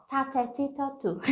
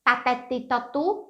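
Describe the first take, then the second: First: "Tatete totu" soft, airy puff on each T; aspirated English T. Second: "Tatete totu" with hard T's, no air, questioning; wrong dry T. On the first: ("Tatete totu" suave, com T soprado) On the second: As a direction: tap "Tatete totu" dry, rising at the end. ("Tatete totu" com T seco, errado) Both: Shown as a demonstration. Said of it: "Não".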